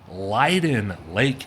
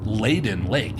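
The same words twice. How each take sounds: First: The name is pronounced the local way, unlike its spelling. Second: The name is pronounced the way it is spelled. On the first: The speaker calls it right. "This is technically Leyden Lake" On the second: The speaker calls it wrong. "at least that's how it looks like it should be pronounced, as you can see from the spelling"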